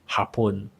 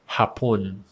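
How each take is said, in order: No difference in how they are said.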